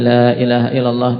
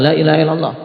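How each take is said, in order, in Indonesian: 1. Diucapkan dengan lembut dan tenang. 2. Diucapkan dengan cara yang memaksa dan mendesak. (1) "Tapi lembut, kasih jeda" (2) "seakan-akan memaksa"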